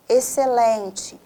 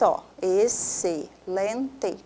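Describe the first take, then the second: First: Said in the usual way. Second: Excelente drawn out very slowly, each syllable apart; very slow syllable split. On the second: Shown as a demonstration. Teacher drags out excelente for students. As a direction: stretch excelente out to show the split. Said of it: "é X para um lado".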